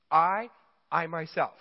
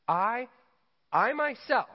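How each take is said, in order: First: "I, I myself" with a loud, punched "I"; stress on myself. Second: "I, I myself" much higher and louder, "myself" ringing; emphatic I myself. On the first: Preacher stresses God's emphatic "I myself" for the congregation. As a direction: hit "I" hard, then lean on "myself". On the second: Preacher proclaims God's "I myself" at full emphasis. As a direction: lift "I myself" up high and loud. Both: Shown as a demonstration. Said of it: "I'm drawing that out on purpose".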